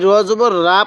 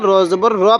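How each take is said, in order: First: The final syllable has an open 'a' vowel. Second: The final syllable has a rounded 'o'-like vowel. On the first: The speaker calls it wrong. "তো আমরা এই র জবর রা পড়ব না" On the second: The speaker calls it right. "র জবর র পড়ব"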